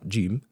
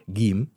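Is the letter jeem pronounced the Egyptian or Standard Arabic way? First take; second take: Standard Arabic; Egyptian. First: The letter is pronounced the Standard Arabic way. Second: The letter is pronounced the Egyptian way. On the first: The speaker calls it right. "لا تطلع جيم" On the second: The speaker calls it wrong. "الحروف المصرية بتاعتنا الجيم مثلا ما ينفعش تطلع جيم"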